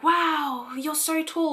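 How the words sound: It sounds admiring and complimentary.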